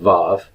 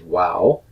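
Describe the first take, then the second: First: The name begins with a v sound. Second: The name begins with a w sound. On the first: This is the modern pronunciation. "Most modern Hebrew pronunciation uh, goes with Vav" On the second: This is the older historical pronunciation. "formerly pronounced wow, historically in Hebrew ... they pronounce it as a w sound"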